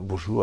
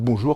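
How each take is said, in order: First: It is said shyly, in a withdrawn way. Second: It is tossed out casually to nobody in particular.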